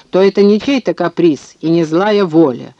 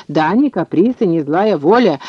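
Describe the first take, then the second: First: Said in the usual way. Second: Swooping up and down on each point; impatient echo. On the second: A narrator's reading. Bromberg rebutting Sikorsky's argument, impatient echo. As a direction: toss the words back in mild exasperation. Opponent throws the words back.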